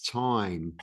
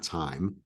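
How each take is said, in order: First: The vowel has a strong New York accent. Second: The vowel has a general, unmarked accent. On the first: "I say it's the Eight of Wands, or I, especially the word time" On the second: "It's not time"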